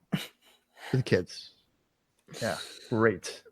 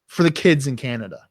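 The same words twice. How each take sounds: First: Slow, low, much softer sarcastic repeat; sarcastic mutter. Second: Said in the usual way. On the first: Shown as a demonstration. Mocking the show's slogan to his friend, slow sarcastic mutter. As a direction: drag it out dripping with sarcasm.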